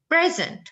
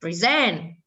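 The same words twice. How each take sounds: First: Present, higher and crisp. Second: Present, low falling. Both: Shown as a demonstration.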